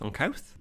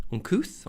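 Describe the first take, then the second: First: Uncouth said "un-KOWTH", rising in question; ow vowel in uncouth. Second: Uncouth said "un-KOOTH", rising in question; oo vowel in uncouth. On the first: Quiz taker unsure of a word, Uncouth tried as "un-KOWTH". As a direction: test out Uncouth with an ow as in mouth. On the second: Quiz taker unsure of a word, Uncouth tried as "un-KOOTH". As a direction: test out Uncouth with an oo as in tooth. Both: Shown as a demonstration.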